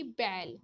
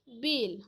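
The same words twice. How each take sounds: First: बैल with an open, longer ai; long vowel. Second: बेल with a close, brief e; short vowel. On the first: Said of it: "बैल को बोलने में अधिक समय लगा". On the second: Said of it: "ए के उच्चारण में कम समय लगता है". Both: Shown as a demonstration.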